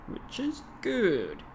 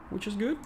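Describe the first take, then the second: First: Drawn-out mock English, "Which is good" slow and high, falling; slow hammed-up English accent; slow put-on English accent. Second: Mock English accent, high, rising on "good"; a silly English accent, "which is good" lifting up; hammed-up English accent; put-on English accent. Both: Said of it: "rather silly attempt to perform some English-speaking kind of an accent".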